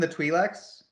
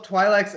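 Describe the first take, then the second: First: "Twi'leks" with first vowel like "ee"; "TWEE-leks" pronunciation. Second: "Twi'leks" with first vowel like "eye"; "TWY-leks" pronunciation. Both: Shown as a demonstration. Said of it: "I've heard it pronounced both".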